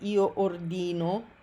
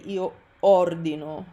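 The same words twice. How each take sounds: First: The stress is on the second syllable of ordino. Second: The stress is on the first syllable of ordino. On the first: The speaker calls it wrong. "it's common that Americans or English speakers will want to say something like io ordino, but that's wrong" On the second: The speaker calls it right. "You want to say io ordino"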